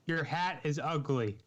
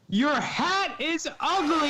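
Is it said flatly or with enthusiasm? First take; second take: flatly; enthusiasm. First: It is said flatly, without enthusiasm. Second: It is said with lively enthusiasm.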